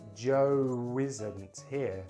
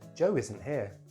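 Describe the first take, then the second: First: The phrase is said very slowly. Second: The phrase is said at normal speed. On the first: "Then I'm going to say it very slowly" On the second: "say it for the third time at normal speed"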